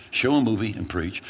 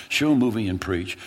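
Both takes have the same delivery.

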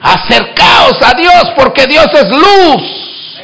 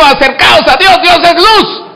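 First: Slow, stretched call to come near; slow exhortation. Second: Faster, higher refrain with a laugh; quick exhortation. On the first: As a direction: drag each word out to the pews. (exhortación lenta y marcada) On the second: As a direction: toss it out lightly, smiling. (exhortación rápida y alegre) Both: Acted. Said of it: "repeated exhortation refrain".

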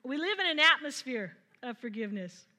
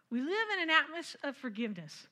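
First: "in" leaned on, louder delivery; stress on in. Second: "live" leaned on with a falling tune; stress on live. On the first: Preacher restates the line louder after stumbling. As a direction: hit "in" in "We live in an atmosphere of forgiveness", louder. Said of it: "Oh, geez". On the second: Preacher stresses "live" to the congregation. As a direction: hit "live" in "We live in an atmosphere of forgiveness". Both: Shown as a demonstration.

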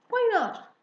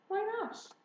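First: High, loud, abrupt "Why not?"; indignant challenge. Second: High "Why not?" at everyday volume; puzzled question. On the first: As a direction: demand a reason, loudly and high. Father challenges the girls' request. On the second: Daughter asks father for reason. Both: Acted.

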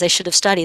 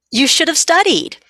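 First: Said in the usual way. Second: High, loud told-you-so from the mom; scolding mom. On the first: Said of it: "when he says". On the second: Retold or imitated. Mom to her stressed teen, a pointed you should have studied. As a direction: mom lectures her teen, higher and louder. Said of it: "And then mom says, of course".

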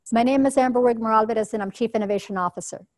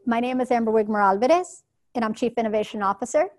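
First: Said in the usual way. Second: Alvarez and Officer each rising like questions; both sentence ends lift as if unsure; uptalking. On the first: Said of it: "That's straight talk". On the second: Shown as a demonstration. Demo of doubtful uptalk, contrasting straight talk, rising ends. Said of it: "as opposed to".

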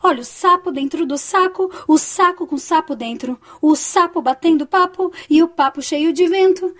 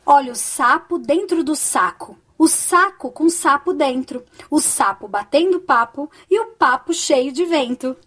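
First: Quick lilting tongue twister; brisk, higher singsong repeat; faster, slightly singsong. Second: Unhurried, clearly separated phrases; careful teaching pace, pausing after each phrase; slow tongue twister. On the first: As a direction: run the phrases together in a bouncy chant. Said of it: "Um pouquinho mais rápido". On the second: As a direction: recite it slowly so learners can follow. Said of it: "Eu vou falar um pouco devagar". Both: Shown as a demonstration.

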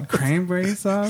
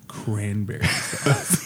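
First: Higher, drawn-out puzzled echo; mock bafflement. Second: Low, very slow enunciation; deliberate insistence. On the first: Bartender puzzled by a customer's odd order, baffled. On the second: Retold or imitated. Brother repeats password to confused bartender, slow and insistent. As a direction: spell it out slowly for someone not getting it.

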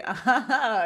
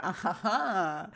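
First: Livelier put-on "ah ha ha"; repeated mock laugh. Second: Slow, soft put-on "ah ha ha"; mock fake laugh. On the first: Sean repeats the shared laugh, overdone mock chuckle. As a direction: overdo the fake chuckle, one too many. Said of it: "Sean does the". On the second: Two friends share a look, slow mock laugh. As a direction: draw out a knowing, sappy fake chuckle. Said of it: "and they share a".

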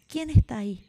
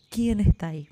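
First: Grito fuerte hacia la montaña; niño gritando. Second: El mismo grito devuelto por la montaña; eco repitiendo. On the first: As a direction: llamar a voces, con curiosidad. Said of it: "el niño grita". (grito de niño que pregunta quién está) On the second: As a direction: repetir como un eco lejano. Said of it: "recibe como respuesta". (eco que responde) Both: A narrator's reading.

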